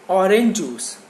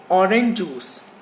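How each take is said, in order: No difference in how they are said.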